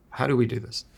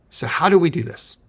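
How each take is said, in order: First: Said in the usual way. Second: Raised, louder rhetorical question. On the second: Real, not acted. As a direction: lift the question up to pull them in. Rhetorical question to open advice.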